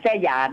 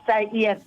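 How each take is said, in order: First: The second syllable starts with a y sound. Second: The second syllable starts with a vowel sound. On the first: The speaker calls it wrong. "อย่าไปอ่านแส้หยาน" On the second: The speaker calls it right. "เขาใช้แค่บอกว่าไส้เอี้ยน"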